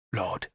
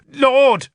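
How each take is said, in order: First: Low, hushed confidential address; dropped voice. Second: High, loud cry of protest; shouted protest. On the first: Bishop confiding in Arthur so few can hear, dropped voice. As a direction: drop your voice right down. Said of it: "he dropped his voice". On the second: Bishop protesting as Arthur leaves, high shout. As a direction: call out in alarm to stop him. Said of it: "Sansom shouted in protest". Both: A narrator's reading.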